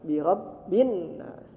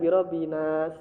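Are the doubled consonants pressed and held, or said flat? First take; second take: pressed; flat. First: The doubled consonants are pressed and held. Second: The consonants are said flat without doubling. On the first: The speaker calls it right. "Nunnya bertasydid maka ditekan" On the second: The speaker calls it wrong. "jangan lurus birobinas"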